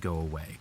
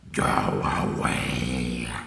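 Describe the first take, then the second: First: It is said in a plain, ordinary voice. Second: It is said in a cooler, put-on voice.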